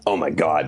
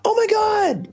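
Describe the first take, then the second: First: It sounds angry. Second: It sounds surprised.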